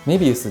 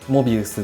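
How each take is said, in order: First: The first vowel is an 'e' sound. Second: The first vowel is an 'o' sound. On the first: The speaker calls it wrong. "メビウスっていう人" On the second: The speaker calls it right. "正式にはモビウスだそうです"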